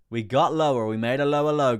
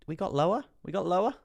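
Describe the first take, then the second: First: Loud, high confirming shout; big booming announcement, falling at the end; excited shout. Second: High, loud rising question; incredulous, pitched-up double check; surprised question. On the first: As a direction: call out the news at full volume. Streamer announces the new low. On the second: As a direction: ask it in high-pitched disbelief. Streamer checks a new low. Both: Real, not acted.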